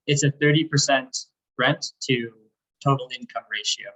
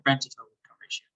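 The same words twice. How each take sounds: First: Slower, clearer repeat. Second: Rushed, fast explanation; quick. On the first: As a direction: say it again slowly and clearly. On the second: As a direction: rattle it off fast. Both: Real, not acted. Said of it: "Maybe say slower".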